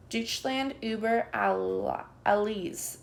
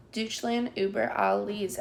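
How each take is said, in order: First: Puppet shouting. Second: Put-on sung, children echoing. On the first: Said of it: "shouts the puppet". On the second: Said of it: "echo the children". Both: A narrator's reading.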